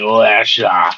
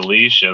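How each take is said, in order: First: The name is said in a slurred, drunken way. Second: The name is said clearly and normally. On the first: The name was chosen while drunk. "her name's Alicia because her parents were drunk" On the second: This is the usual way to say the name. "Instead of saying Alicia"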